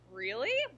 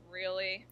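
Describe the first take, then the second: First: It sounds surprised and amazed. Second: It sounds irritated and annoyed. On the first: The speaker is amazed by the news. "To show like, wow, surprise" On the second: The speaker is annoyed by the news. "can also show irritation"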